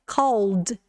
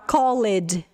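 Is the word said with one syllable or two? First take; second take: one; two. First: It is said as one syllable ending in d. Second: It is said with an extra second syllable. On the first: The speaker calls it right. "a gente acrescenta só o D no final" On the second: The speaker calls it wrong. "Muita gente fala called"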